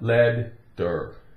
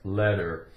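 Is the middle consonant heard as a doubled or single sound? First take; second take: doubled; single. First: The middle sound is split into two D sounds. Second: The middle sound is one quick D-like tap. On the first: The speaker calls it wrong. "It's not lead-der" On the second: The speaker calls it right. "So the T sounds like a D, one D"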